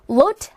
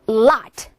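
First: The vowel sounds like 'oh'. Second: The vowel sounds like 'ah'. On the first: The speaker calls it wrong. "lot 아니고" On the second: The speaker calls it right. "이제는 아로 넘어갑니다"

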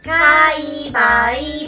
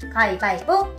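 First: The phrase is said slowly. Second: The phrase is said quickly. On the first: "So in slower version, we can say" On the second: "Koreans just go ... that was too fast"

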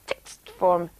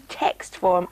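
First: The word 'text' is said without its vowel. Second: The word 'text' keeps its vowel.

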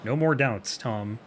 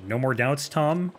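First: It is said as a statement, falling. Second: It is said as a question, rising.

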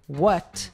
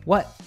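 First: The final T is clearly released. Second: The final T is cut short and reduced. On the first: The speaker calls it wrong. "usually we don't say what" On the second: The speaker calls it right. "we say what"

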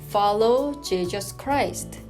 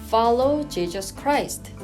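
No difference in how they are said.

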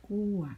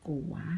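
First: The word is said with a falling tone. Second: The word is said with a rising tone. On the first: "โท" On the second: "ไม่จัตวา"

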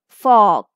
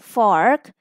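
First: The r after the vowel is silent. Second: The r after the vowel is pronounced. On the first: "if you read this word with the British pronunciation, it will be f-awk" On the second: "if you go for the American pronunciation, so it is simply R"

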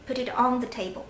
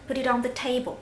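First: The word "on" carries the main stress. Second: The word "table" carries the main stress. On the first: Put it on top, not under or beside it. "我没有在重读这个table，我在重读这个介词on" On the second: Put it on the table, not somewhere else like a stool. "这个时候我重读了table，没有重读这个介词"

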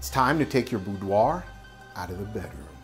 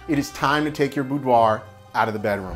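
First: It is said in a put-on trucker voice. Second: It is said in a normal, serious voice. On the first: "We're using my trucker voice" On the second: "let's get serious"

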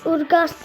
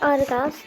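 First: The name begins with an 'ur' sound. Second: The name begins with an 'ar' sound. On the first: The speaker calls it wrong. "Ben ona Ur diyorum" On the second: The speaker calls it right. "okunuşu Ar"

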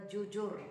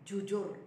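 The two takes are said the same way.

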